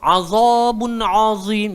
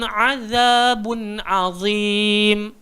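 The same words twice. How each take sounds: First: The vowels are said with rounded lips, like oh. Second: The vowels are said with an open mouth. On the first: The speaker calls it wrong. "jadi oh oh oh tak betul" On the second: The speaker calls it right. "mulut kita a buka aja"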